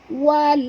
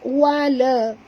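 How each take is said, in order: First: The l ends cleanly with no extra vowel. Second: The l bounces into an extra vowel sound. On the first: The speaker calls it right. "Bunyikan dengan jelas lam yang mati" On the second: The speaker calls it wrong. "jangan dibaca wala"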